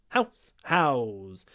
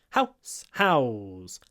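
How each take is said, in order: The two takes are said the same way.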